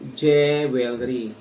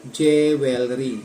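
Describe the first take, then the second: First: It is read letter by letter, Tagalog style. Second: The same.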